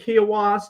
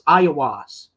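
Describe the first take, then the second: First: The name begins with a K sound. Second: The name begins with a vowel sound. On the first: This is the old pronunciation. "Instead of it being Kiowas" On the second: This is the new pronunciation. "the Q is silent"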